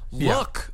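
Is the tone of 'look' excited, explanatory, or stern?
excited. It sounds eager and excited, like showing something off. Check out what I have. "look at what I have?"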